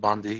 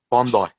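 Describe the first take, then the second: First: The name is said the American way. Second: The name is said the Australian way. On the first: The speaker calls it wrong. "That's how us Americans pronounce it" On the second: The speaker calls it right. "Bondi, not Bundy"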